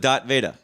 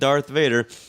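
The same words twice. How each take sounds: First: The name is said in a Boston accent. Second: The name is said in a standard accent. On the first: "He had a thick Boston accent" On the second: "his name wasn't Darth Vader"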